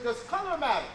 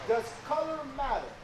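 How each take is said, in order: First: The question is spoken at a normal pace. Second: The question is spoken slowly and deliberately.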